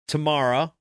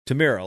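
First: The middle syllable sounds like 'mar'. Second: The middle syllable sounds like 'meer'. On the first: The speaker calls it wrong. "It's not Tamara" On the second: The speaker calls it right. "like, look in the mirror"

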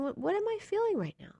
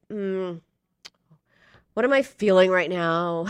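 First: It sounds gentle and curious. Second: It sounds harsh and judgmental.

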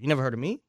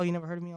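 First: It is said in a confrontational, challenging tone. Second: It is said in a nice, friendly tone.

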